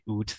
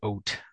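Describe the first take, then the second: First: The vowel sounds like the 'oo' in 'boot'. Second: The vowel sounds like the 'oa' in 'boat'. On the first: The speaker calls it wrong. "They don't say oot" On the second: The speaker calls it right. "they say oat"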